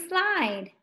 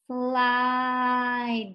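First: Said in the usual way. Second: "Slide" stretched out slowly on one long, level vowel. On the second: Shown as a demonstration. Teacher sounding out the word for learners, slowly drawn out "Slide". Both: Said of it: "Let's say it slow".

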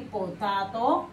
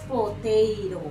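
First: "potato" said as written, po-TA-to with Spanish vowels; spelling pronunciation. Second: "potato" said po-TEI-ro, with a tapped second t; English pronunciation. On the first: Teacher shows children how it is written, "potato" sounded as spelt, po-ta-to. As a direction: read "potato" letter for letter, with a plain "ta" in the middle. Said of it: "se escribe potato". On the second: Teacher shows children how it is pronounced, "potato" said as po-TEI-ro. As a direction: stress the "tei" in "potato" and soften the last t to a flap. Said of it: "pero se pronuncia potato".

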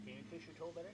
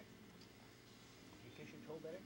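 First: Said in the usual way. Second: Kissing it better. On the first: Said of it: "repeated slower to the toddler". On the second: Real, not acted. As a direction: coax it out slowly and softly. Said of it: "first take, then repeated".

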